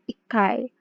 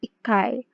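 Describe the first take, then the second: First: The chi syllable is dropped, leaving a doubled k. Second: The same.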